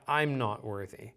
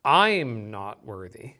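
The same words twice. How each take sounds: First: Said in the usual way. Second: "I'm" louder and drawn out; stress on I'm. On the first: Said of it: "read it a little louder". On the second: Shown as a demonstration. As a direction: lean slowly and firmly on "I'm". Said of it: "read it a little louder, maybe".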